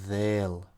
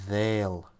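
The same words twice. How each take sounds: No difference in how they are said.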